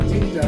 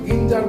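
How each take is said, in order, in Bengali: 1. এটি j ধ্বনি দিয়ে শুরু হয়। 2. এটি হার্ড g ধ্বনি দিয়ে শুরু হয়। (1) "মুরগির জ করবে" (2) "আমরা কিন্তু গিঞ্জার বলছি না"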